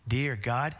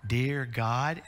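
First: "Dear God" rising again in the same solemn cadence; prayer cadence. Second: "Dear God" with a rising, drawn-out prayer cadence. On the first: Father repeating the bedtime prayer opening, rising cadence. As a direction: stretch "Dear" up gently. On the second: Father praying at his baby daughter's bedside, rising prayer cadence. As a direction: lean into "Dear" and let it rise. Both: Shown as a demonstration. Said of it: "I tried to have this cadence".

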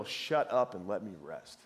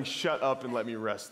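First: Lower, slow and bitter "Shut up and let me rest"; mean it, a tired dad who is fed up; real irritation. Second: Smiling version. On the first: A worn-out father snapping at his kids, low and bitter. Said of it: "It was the real". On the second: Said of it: "It wasn't the smiling". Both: Retold or imitated.

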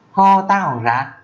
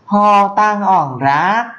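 First: "Ho tăng ỏng rác" hơi cao, chậm vừa; nhắc lại nhanh hơn chút; Mường phrase. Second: "Ho tăng ỏng rác" cao và rất chậm; đọc tách từng tiếng, giọng cao; Mường phrase, slow. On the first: (câu Mường lên cao, chậm vừa) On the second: (câu Mường cao, rất chậm) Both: Shown as a demonstration. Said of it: "thì là".

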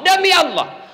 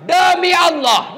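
First: Said in the usual way. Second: Slow, louder oath on "demi Allah"; forceful oath. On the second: Real, not acted. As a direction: swear "demi Allah" slowly and hard. (sumpah "demi Allah" pelan dan keras)

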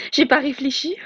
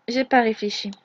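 First: Mocking echo of "J'ai pas réfléchi", pitch lifted on "J'ai"; imitation moqueuse. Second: Said in the usual way. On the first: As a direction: throw his own words back at him scornfully. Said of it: "tout ce que tu trouves à dire, c'est". (répète « J'ai pas réfléchi » avec mépris, en montant sur « J'ai »)

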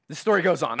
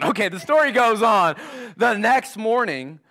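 First: Said in the usual way. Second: Energetic restart. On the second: Real, not acted. Preacher repeats with more energy.

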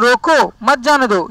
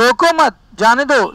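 First: रोको set apart, then मत जाने दो run together; pause after रोको. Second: रोको मत run together, then जाने दो set apart; pause after मत. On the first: Teacher shows students an obstruction, pausing right after रोको. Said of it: "ये रुकावट हो गई". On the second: Teacher shows students no obstruction, pausing right after मत. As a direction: join मत to रोको, break before जाने दो. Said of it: "अविरोध हो गया साहब". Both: Shown as a demonstration.

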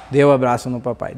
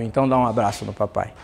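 First: Said in the usual way. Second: Fala terna e rápida com o filho; carinhoso, mais grave e baixo. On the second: Retold or imitated. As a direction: pede o abraço com doçura. Pai pede abraço ao filho. (pai pede abraço ao filho, com ternura)

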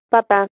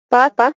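First: "papá" stressed on the final syllable, pa-PÁ; "papá" with weak start, strong ending; stress on last syllable. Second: "Papá" stressed on the first syllable, PA-pa; "Papá" with a strong first PA, weak ending. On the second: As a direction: punch the opening syllable of "Papá". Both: Shown as a demonstration. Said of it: "cambia incluso el significado de una palabra".

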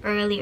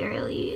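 First: Said in the usual way. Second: Early whispered without voice; whispering. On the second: Real, not acted. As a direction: breathe the word early unvoiced. Repeats the word, then whispers it.

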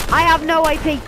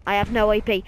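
First: "I have no A P" shouted high and loud; louder frustrated repeat. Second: Said in the usual way. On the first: Real, not acted.

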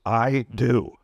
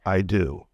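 First: "I DO" with both I and DO firmly stressed; two stresses. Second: "I do" low and even, neither word stressed; no stresses. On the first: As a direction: give I and DO a full beat each. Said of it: "you want two stresses". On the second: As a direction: say "I do" with equal, unstressed weight on both words. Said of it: "No stresses". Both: Shown as a demonstration.

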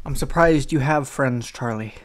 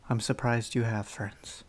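First: Louder, playful teasing shout of I'm surprised you have friends; loud teasing jab. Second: Said in the usual way. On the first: Real, not acted. Teasing Charlie about having friends, a loud jab.

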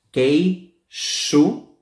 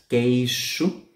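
First: "queixo" with X as SH, slow; model word. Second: "Queixo" with X as SH; model word. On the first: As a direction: say "queixo" as keishu. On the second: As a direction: repeat "Queixo", X like SH. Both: Shown as a demonstration. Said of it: "suena como si fuese una S H".

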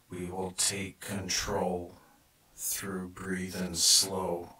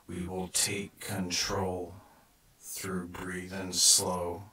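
Both takes have the same delivery.

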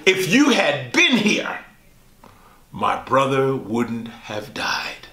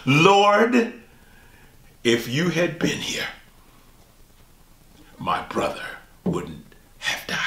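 First: Grieving plea. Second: Plea fading to a broken whisper; Mary grieving, voice dropping to a tearful whisper. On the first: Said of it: "and says these words". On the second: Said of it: "says the same words as her sister Martha". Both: Acted.

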